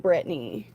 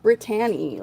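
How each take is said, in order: First: The name is said in a short, reduced way. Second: The name is said in a full, effortful way. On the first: The speaker calls it right. "I say Brittany" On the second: The speaker calls it wrong. "screw all that extra work with Brittany"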